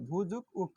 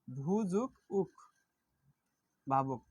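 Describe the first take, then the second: First: Said in the usual way. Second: "ভূ যোগ উক" drawn out slowly, each part apart; slow syllable split. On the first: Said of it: "প্রকৃতিপত্র করলে". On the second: Shown as a demonstration. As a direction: spell out "ভূ যোগ উক" piece by piece, slowly. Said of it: "প্রকৃতিপত্রই করি তাহলে". ("ভূ যোগ উক" ধীরে টেনে ভেঙে বলা)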